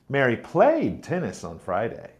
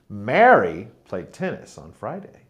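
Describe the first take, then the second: First: The word played is stressed. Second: The word Mary is stressed. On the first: She played rather than watched. "Mary played tennis, not watched" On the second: It was this person and not someone else. "it was Mary who played tennis, not Peter"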